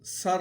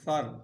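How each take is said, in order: First: The word starts with a hissing s sound. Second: The word starts with a soft th sound. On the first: The speaker calls it wrong. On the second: The speaker calls it right.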